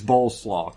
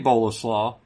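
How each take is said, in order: First: The middle e is silent, like coleslaw. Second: The middle e is pronounced as a syllable. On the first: "It's spelled just like coleslaw" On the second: "I bet you pronounce the e"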